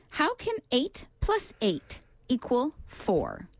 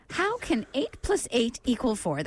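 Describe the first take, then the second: First: Quizmaster's measured delivery with gaps between phrases; slow, deliberate. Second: Moderately slow riddle reading; deliberate but flowing quiz question; measured repeat. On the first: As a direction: pose the riddle very slowly, word by word. Posing the brain teaser, first reading. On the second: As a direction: repeat the puzzle clearly in a more connected flow. Repeating the brain teaser less slowly. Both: Real, not acted.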